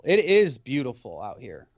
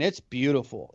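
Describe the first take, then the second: First: "is" punched as the most prominent word; stress on IS. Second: Said in the usual way. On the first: Real, not acted. Resident vouching for his town to a friend, stressing "is". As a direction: lean firmly on "is" to insist it's true.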